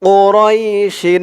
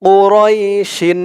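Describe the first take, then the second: No difference in how they are said.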